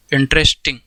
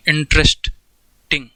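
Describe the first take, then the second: First: Said in the usual way. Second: interesting stretched slowly in one long breath; slowly drawn out. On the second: Shown as a demonstration. Teacher sounding out interesting for students, slowly drawn out. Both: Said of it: "एक बार में बोल सकते हो कि नहीं".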